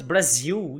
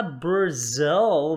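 First: "Brasil" ending in a quick "ziu"; Portuguese-style BRASIL. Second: "Brazil" stretched on "zil" with a dark l; English BRAZIL. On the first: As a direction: say "Brasil" the Brazilian way, l turned into u. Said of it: "não posso falar apenas Brasil". ("Brasil" com som de "ziu", em português) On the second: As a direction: say a slow "bruh-ZILL". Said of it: "tem que falar Brazil". ("Brazil" em inglês, bem alongado) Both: Shown as a demonstration.

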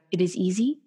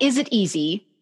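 First: Calm, even statement of fact; teacher's calm assurance. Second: Said in the usual way. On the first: Retold or imitated. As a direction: say it like a settled truth, falling. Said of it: "it was the way he said it". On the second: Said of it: "not, not".

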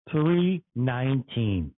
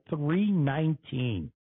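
First: "Three nineteen" slow and weighty, each word stressed; emphatic repeat. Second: Said in the usual way. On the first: Real, not acted. Driver repeating the gas price, "Three nineteen" slow and emphatic. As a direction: lean hard on "Three nineteen", dropping in pitch.

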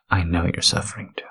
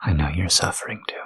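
First: Said in the usual way. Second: Breathy whispered take. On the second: Acted. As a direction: whisper it close to the mic. Repeated line, whispered take.

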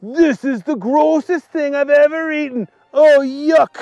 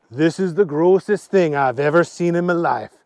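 First: High, raised cry of revulsion; acted outburst of disgust; disgusted yell. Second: Said in the usual way. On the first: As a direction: exclaim high while thoroughly grossed out. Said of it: "he yelled".

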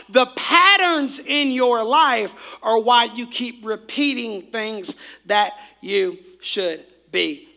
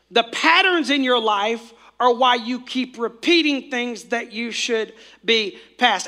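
First: Slow, deliberate and weighty; slow emphatic repeat. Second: Said in the usual way. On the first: Shown as a demonstration. Preacher repeating slowly for note-takers in the back. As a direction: spell it out for the people in the back. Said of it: "I'm gonna say it again for all the people in the back". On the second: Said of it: "I'm gonna say that again".

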